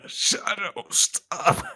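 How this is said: It is said in an upset tone.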